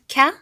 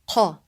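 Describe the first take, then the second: First: The k sound is made toward the front of the mouth. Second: The k sound is made deep in the throat. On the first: The speaker calls it wrong. "it's not ka" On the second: The speaker calls it right. "it's qa. It's deeper than the English K sound"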